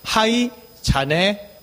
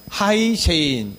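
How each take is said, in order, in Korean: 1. 이 이름은 두 음절, ja-neh로 발음합니다. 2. 이 이름은 한 단어, Jane으로 발음합니다. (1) "요거 잘못 읽으면" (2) "요거 뭐라고 읽습니까?"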